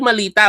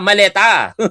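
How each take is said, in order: First: The second vowel sounds like 'i'. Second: The second vowel sounds like 'e'. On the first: The speaker calls it wrong. "Hindi malita" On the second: The speaker calls it right. "ang tamang spelling ng maleta"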